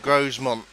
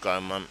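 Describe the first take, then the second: First: The S in the middle is pronounced. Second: The S in the middle is silent. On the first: The speaker calls it wrong. "I was getting it wrong ... There's an S in it, you need to use it" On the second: The speaker calls it right. "It's pronounced Gromont"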